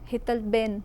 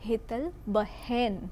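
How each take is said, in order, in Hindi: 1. दूसरा शब्द बिना ह की आवाज़ के बोला जाता है। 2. दूसरा शब्द ह की आवाज़ के साथ बोला जाता है। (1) "આપણે બોલીએ છીએ શું? બેન" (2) "ત્યાં હ આપણે બોલીએ છીએ"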